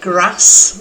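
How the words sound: It is said with a northern English accent.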